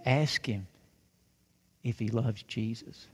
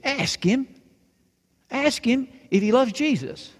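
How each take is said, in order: First: Put-on soft, low-pitched little girl's request; gentle request. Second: Put-on high-pitched little-girl insistence; insistent demand. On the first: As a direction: ask it quietly, with a pause midway. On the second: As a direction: insist on it, voice jumping up. Girl insists after refusal.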